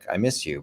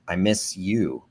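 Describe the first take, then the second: First: It sounds light, casual and affectionate. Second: It sounds needy, heavy and demanding.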